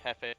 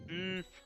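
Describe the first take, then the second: First: The name is said like the Spanish word. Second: The name is said as one non-Spanish word. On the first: This is how many other people say it. The speaker calls it wrong. "A lot of people say Jefe for the Spanish" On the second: This is how the person prefers it. The speaker calls it right. "the way he prefers his name to pre- be pronounced is Jeef"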